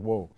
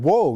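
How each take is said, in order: First: Said in the usual way. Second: Startled shout. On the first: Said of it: "when I said". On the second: Retold or imitated. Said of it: "I said".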